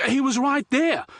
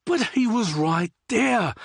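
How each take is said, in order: First: Much higher, loud indignant cry; outraged shout. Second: High, slow drawn-out complaint; whiny protest. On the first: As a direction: yell it in shocked outrage. Liam outraged fish escaped. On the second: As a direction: stretch it out, sulky. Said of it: "Liam continued to protest". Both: Acted.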